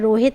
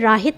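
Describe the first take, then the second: First: The first vowel sounds like 'oh'. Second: The first vowel sounds like 'ah'. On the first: The speaker calls it right. "ये रोहित है" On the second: The speaker calls it wrong. "ये राहित नहीं है"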